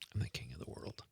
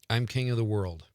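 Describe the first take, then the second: First: It is said hushed, like a guilty secret. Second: It is said plainly, without special emotion.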